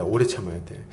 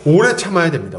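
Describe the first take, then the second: First: 오래 참아야 돼 said much lower and softer, like a quiet echo; soft repeat. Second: 오래 said loud and firm, held a little longer; stress on 오래. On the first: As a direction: repeat it quietly to yourself, 오래 gently stressed. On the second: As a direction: lean into 오래 with a full, falling stress. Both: Shown as a demonstration.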